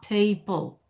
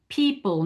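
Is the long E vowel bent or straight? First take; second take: bent; straight. First: The long E vowel glides and bends. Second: The long E vowel is held steady. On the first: The speaker calls it wrong. "you bent that e" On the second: The speaker calls it right. "keep them straight. Don't bend them"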